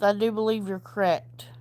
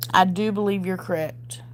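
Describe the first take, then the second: First: Hushed, breathy aside; whispered. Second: Said in the usual way. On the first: Shown as a demonstration. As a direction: whisper the agreement, then say it aloud. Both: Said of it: "repeated aloud".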